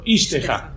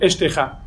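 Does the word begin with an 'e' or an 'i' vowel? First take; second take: i; e. First: The first vowel is an 'i' sound. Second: The first vowel is an 'e' sound. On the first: "Tendría que haber dicho ishteja" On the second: "está como vocalizada de una manera no tan común"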